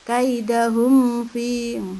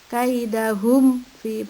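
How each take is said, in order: First: The m sound is blurred into the next word. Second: The m sound is pronounced clearly and distinctly. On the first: The speaker calls it wrong. "bukan kaidahum fi ya" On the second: The speaker calls it right. "mati ketemu fatu di jelas"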